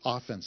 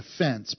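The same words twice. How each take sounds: First: The stress is on the first syllable. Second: The stress is on the second syllable. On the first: The attacking side, as opposed to defense. The speaker calls it right. "but the offense, like defense" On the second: An insult or a wrongdoing. The speaker calls it wrong. "Not the offense"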